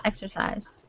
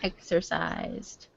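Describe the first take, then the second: First: Exercised said fast as "exer-cised"; pronounced exer. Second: Exercised said as "exer-cised", fast; pronounced exer. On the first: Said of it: "I say it really fast". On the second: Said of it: "I say exer". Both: Shown as a demonstration.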